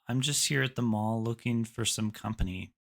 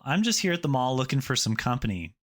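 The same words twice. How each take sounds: First: The delivery sounds off-putting and unappealing. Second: The delivery sounds confident and assured. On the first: The listener does not feel the vibe. The speaker calls it wrong. "maybe not so attractive" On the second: The speaker seems fun to spend time with. The speaker calls it right. "much more confident"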